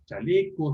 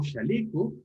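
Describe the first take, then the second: First: "chaleco" with a hard ch, falling; "chaleco" as t͡ʃ, falling. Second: "chaleco" as ʃaleko, rising. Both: Shown as a demonstration. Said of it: "la che o la she".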